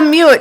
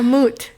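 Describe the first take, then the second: First: The vowel has a 'y' glide, 'yoo'. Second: The vowel is a plain 'oo' sound. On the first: The speaker calls it wrong. "Not a mute" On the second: The speaker calls it right. "A moot"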